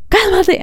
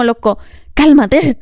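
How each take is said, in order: First: "cálmate" jumping much higher, pleading; high, exasperated repeat of "cálmate"; exasperated plea. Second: Slow, deliberate "cálmate" to a shouter; calm them down slowly; slow, imitated soothing; mock calming. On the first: Retold or imitated. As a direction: beg them to calm down, pitch up. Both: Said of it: "Es como".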